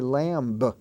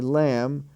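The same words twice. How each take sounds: First: A B sound is heard at the end. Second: No B sound is heard at the end. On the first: The speaker calls it wrong. "We don't say lamb" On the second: The speaker calls it right. "we say lamb"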